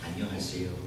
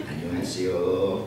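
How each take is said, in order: First: Said in the usual way. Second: Slow, louder "Annyeonghaseyo" with a laugh, rising at the end; a playful Korean hello, drawn out and laughing; laughing greeting. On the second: Retold or imitated. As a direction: greet in Korean, stretched and chuckling. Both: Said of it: "gitu ya".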